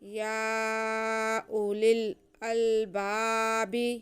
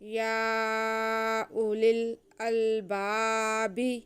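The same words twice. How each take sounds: Both takes have the same delivery.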